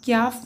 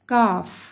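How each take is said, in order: First: A y-glide follows the k sound. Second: No y-glide follows the k sound. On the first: The speaker calls it wrong. "क्याफ नहीं पढ़ना" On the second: The speaker calls it right. "ये है काफ"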